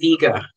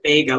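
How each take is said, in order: First: The name does not sound like 'Vegas'. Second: The name sounds like 'Vegas' without the s. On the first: The speaker calls it wrong. "or they'll say Vega" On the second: The speaker calls it right. "more like Vega, like Las Vegas without the S"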